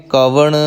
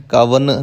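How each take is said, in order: First: ਕਵਣ ending in a retroflex ṇ. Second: ਕਵਨ ending in a plain dental n; wrong dental n. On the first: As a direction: curl the tongue back for the n of ਕਵਣ. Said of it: "ਨਾਣੇ ਨਾਲ ਹੀ ਉਚਾਰਨ ਕਰਨਾ ਹੈ". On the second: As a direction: say ਕਵਨ with the tongue on the teeth for n. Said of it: "ਕਵਨ ਨਹੀਂ ਕਹਿਣਾ". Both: Shown as a demonstration.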